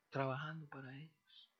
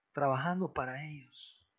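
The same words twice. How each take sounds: First: Quiet echo. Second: Said in the usual way. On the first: Shown as a demonstration. Preacher repeats to the congregation that they work for the next generation, softly. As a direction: repeat "Trabajando para ellos" much softer, an inward echo.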